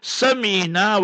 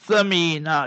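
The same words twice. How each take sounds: First: It begins with a plain s sound. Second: It begins with a th sound, tongue out. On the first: It means fat like a pumpkin. The speaker calls it wrong. "Samina with the S will mean" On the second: It means very precious. The speaker calls it right. "where your tongue will come out"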